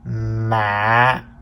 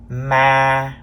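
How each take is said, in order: First: The pitch drops low and is cut short. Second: The pitch stays level at mid height. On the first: "the low broken tone" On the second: "This is the mid-level tone, or sometimes we call it the flat tone"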